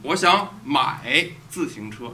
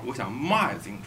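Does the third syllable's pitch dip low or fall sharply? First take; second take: dips low; falls sharply. First: The third syllable dips low in pitch. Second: The third syllable falls sharply from high pitch. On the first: The speaker wants to buy a bicycle. "I want to buy a bicycle" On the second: The speaker wants to sell a bicycle. "I want to sell my bicycle"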